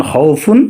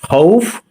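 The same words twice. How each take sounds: First: খাউফুন with the full ুন ending; wrong ending. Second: খাউফ ending on ফ, no ুন; correct stop. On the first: Teacher showing the reading to avoid when stopping, wrong ending. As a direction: say খাউফুন with the nunation sounded. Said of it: "না পড়ে". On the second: Teacher showing the right reading when stopping, correct pronunciation. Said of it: "না পড়ে খাউফ". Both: Shown as a demonstration.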